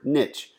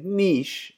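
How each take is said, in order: First: The word rhymes with 'rich'. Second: The word does not rhyme with 'rich'. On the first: "niche rhymes with rich" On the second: "instead of saying niche"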